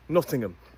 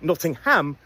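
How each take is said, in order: First: The last syllable is a reduced 'um'. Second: The last syllable is a full 'ham'. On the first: The speaker calls it right. "we say Nottingham" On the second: The speaker calls it wrong. "we don't say Nottingham"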